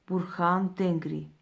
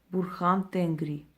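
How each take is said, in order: Both takes have the same delivery.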